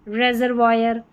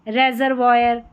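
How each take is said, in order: Both takes have the same delivery.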